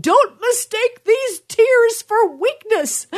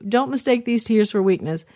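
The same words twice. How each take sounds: First: High, drawn-out crying yell; hammed-up wail through tears, much higher and slower; mock tearful yell. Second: Said in the usual way. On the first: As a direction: re-enact a crying mother's yell, stretching every word. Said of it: "I'm crying. And I said". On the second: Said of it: "I would say that to you".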